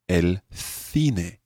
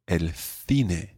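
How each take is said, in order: First: Spain's accent: the c sounds like th. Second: Spain's accent: the c sounds like th.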